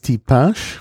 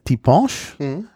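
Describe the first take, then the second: First: It is said with a standard French vowel. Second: It is said with a Creole vowel, like o. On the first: "Auf Französisch heißt es Tipinche" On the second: "im lokalen Kreol heißt es Dibonche mit O"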